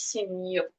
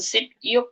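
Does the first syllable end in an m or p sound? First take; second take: m; p. First: The first syllable ends in an m sound. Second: The first syllable ends in a p sound. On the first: The speaker calls it right. "tapi sim yuk" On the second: The speaker calls it wrong. "bukan sip yuk"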